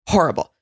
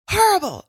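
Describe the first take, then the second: First: Said in the usual way. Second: HORRIBLE pitched way up, then falling; elevated. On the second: Retold or imitated. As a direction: repeat "horrible" in a high mock-exasperated cry. Retold quote, repeated elevated.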